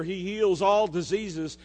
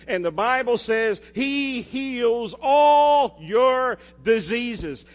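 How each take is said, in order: First: Said in the usual way. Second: "all" drawn out and punched, slow and loud; stress on all. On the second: Shown as a demonstration. Pastor driving home the verse to his church, slow stress on "all". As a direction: lean hard on "all", slowly. Slow emphatic scripture climax.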